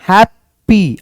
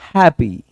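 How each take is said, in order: First: The p sound is hit hard and doubled. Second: The p sound is single and loose. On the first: The speaker calls it wrong. "स्ट्राइक करते हैं" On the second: The speaker calls it right. "इसको सिर्फ एक पी पढ़ना है और इसको loose छोड़ देना है"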